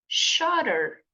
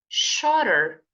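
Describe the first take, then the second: First: The middle t sounds like a quick r. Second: The same.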